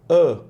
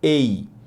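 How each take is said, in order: First: The article is a short, weak 'uh' sound. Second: The article is a full 'ay' sound. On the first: "a gente fala a" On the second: "gostam de falar A, porque esse é o som da letra A"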